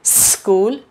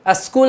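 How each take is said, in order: First: "स्कूल" opening straight on a long hissed s; no initial vowel. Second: "स्कूल" wrongly begun with a short "a", as a-skool; added initial vowel. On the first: Teacher modelling correct speech, "स्कूल" as sss-kool. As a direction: hold the s of "स्कूल" before "kool". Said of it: "ना पढ़ के क्या पढ़ेंगे". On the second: Teacher showing the common mistake, "स्कूल" said as askool. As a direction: put an "uh" before the s of "स्कूल". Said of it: "स्कूल ना पढ़ के". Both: Shown as a demonstration.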